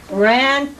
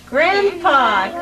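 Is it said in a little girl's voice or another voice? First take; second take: another voice; little girl. First: It is said in a non-girl voice. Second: It is said in a little girl's voice.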